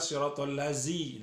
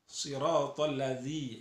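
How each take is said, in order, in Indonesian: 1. Konsonannya adalah bunyi z biasa. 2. Konsonannya adalah bunyi th bersuara. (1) "nah itu tidak boleh. Itu salah" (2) "zi itu zal huruf zal"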